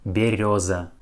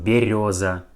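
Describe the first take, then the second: First: The second vowel sounds like yo. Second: The same.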